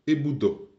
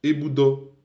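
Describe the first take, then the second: First: Eboudo with a falling ending; past-tense eboudo falling. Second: Eboudo with a rising ending; present-tense Eboudo rising. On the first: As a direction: drop the end of eboudo. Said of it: "c'est terminé". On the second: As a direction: lift the end of Eboudo. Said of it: "donc ça monte". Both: Shown as a demonstration.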